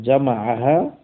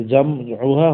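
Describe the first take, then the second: First: জামাআহা slow, each syllable ja-ma-a-ha clear; জামাআহা spelled out slowly as the right form; correct reading. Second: জামউহা said as jam-u-ha, the wrong way; জামউহা with u after the m, as not to be read. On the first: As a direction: draw out জামাআহা carefully. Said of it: "বরং জামাআহা". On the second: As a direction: read জামউহা as the mistaken form. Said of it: "হবে না, বরং". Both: Shown as a demonstration.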